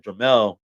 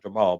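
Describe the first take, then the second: First: The name ends with a 'mel' sound. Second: The name ends with a 'mal' sound. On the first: The speaker calls it right. "Jamel, not Jamal, but Jamel" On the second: The speaker calls it wrong. "not Jamal"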